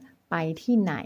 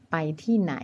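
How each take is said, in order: First: ไปที่ไหน drawn out slowly; slow, careful question. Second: Said in the usual way. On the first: Shown as a demonstration. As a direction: stretch out ไปที่ไหน for the learner. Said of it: "ถามว่า". (พูดว่า ไปที่ไหน ช้าๆ ชัดๆ) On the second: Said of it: "แปลว่า".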